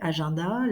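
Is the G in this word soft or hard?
soft. The G is soft, like a French J. "On va les lire à la française"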